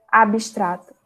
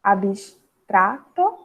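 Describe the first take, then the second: First: Said in the usual way. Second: Abstrato drawn out slowly, each syllable apart. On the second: Shown as a demonstration. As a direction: stretch out abstrato so they hear every syllable.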